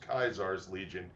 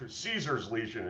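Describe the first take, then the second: First: The name begins with a K sound. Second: The name begins with an S sound. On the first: The speaker calls it wrong. "it is Kaisar's Legion" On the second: The speaker calls it right. "instead of Caesar's Legion"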